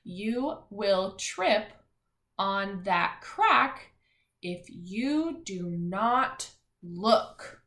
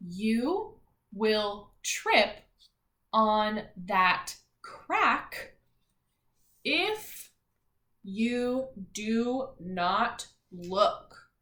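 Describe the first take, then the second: First: Slow, word by word; slow choral reading pace; slow reading aloud. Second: Very slow, word by word; slow choral reading pace; slow reading aloud. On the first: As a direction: read it slowly once more for the kids. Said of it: "Let's read it one more time". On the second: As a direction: read it out slowly for the class to follow. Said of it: "Ready? read it all together". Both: Shown as a demonstration.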